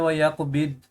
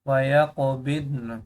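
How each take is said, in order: First: It stops on the d sound. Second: It ends with a held n sound. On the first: The speaker calls it wrong. "ये गलत है।" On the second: The speaker calls it right. "तौत की भी साउंड आएगी, नून की भी साउंड आएगी।"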